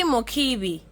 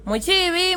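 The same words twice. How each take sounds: First: "Mukibi" with a hard k. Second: "Muchibi" with a ch sound, pitched up high. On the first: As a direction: land on "Mukibi", hard k, settling it. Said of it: "So K I is key". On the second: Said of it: "Should we be saying Mokibi or Mochibi?". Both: Shown as a demonstration.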